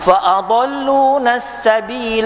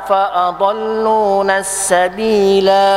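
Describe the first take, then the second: First: The final vowel is short, running straight on. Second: The final vowel is held long before a stop. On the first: The reciter continues into the next phrase. "Sambung boleh tak? Boleh" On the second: The reciter stops here. "Dua harakat. Pasal kita berhenti"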